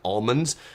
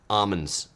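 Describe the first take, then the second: First: The L sound is clearly pronounced. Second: The L sound is left out. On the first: "They don't call them like almonds" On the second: "they don't pronounce the L. They call them like almonds"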